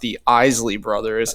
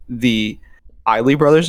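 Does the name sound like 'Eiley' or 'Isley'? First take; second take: Isley; Eiley. First: The name is said like 'Isley'. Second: The name is said like 'Eiley'. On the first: The speaker calls it right. "it was actually pronounced the Isley Brothers" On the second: The speaker calls it wrong. "as we were pronouncing it"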